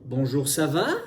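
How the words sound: The voice rises at the end. "tu vois que ma voix monte"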